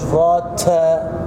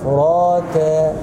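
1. تُنطق التاء الأخيرة مع نفَس هواء مسموع. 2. تُنطق التاء الأخيرة دون نفَس هواء مسموع. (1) "تاء فراتا" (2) "مش فراتا"

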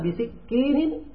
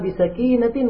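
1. Kata itu diucapkan sebagai bisikinin. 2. Kata itu diucapkan sebagai bisakinatin. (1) "dibaca begitu" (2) "Sakinah artinya apa? Dengan ketenangan"

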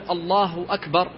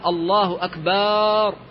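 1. الحركة بعد الباء قصيرة. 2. الحركة بعد الباء ممدودة طويلة. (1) "فبدلا من أن يقول الله أكبر" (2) "كما لو مد الباء وأشبع حركتها"

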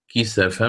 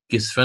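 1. تتبع السين حركة الفتحة a. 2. لا توجد حركة بعد السين. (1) "فسيقرأ بفتحها" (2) "بسكون السين للإمام نافع"

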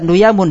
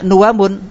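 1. Konsonan tengahnya bunyi y. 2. Konsonan tengahnya bunyi w. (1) "dibaca nuyamun dengan ya" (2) "membaca dengan wawu"

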